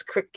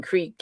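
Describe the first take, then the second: First: "crick" with a short i, rhyming with brick; crick variant. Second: "creek" with a long ee, rhyming with seek; creek variant. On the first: Showing that people say it differently, short-i "crick". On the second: Showing that people say it differently, long-ee "creek". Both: Shown as a demonstration. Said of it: "people say that differently".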